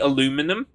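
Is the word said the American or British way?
American. It is said the American way. The speaker calls it wrong. "like you say aluminum"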